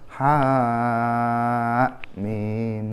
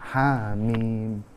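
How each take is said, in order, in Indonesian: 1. Harakat pertama ditahan panjang. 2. Harakat pertama ditahan pendek, dua ketukan. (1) "bukan ha mim, nggak seperti itu" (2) "tapi ha mim, dua harokat"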